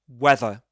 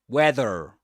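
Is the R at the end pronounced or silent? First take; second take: silent; pronounced. First: The final R is silent. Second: The final R is pronounced.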